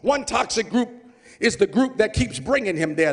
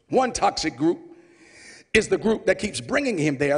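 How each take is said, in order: First: The line is spoken quickly. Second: The line is spoken slowly. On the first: The speaker calls it wrong. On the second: The speaker calls it right.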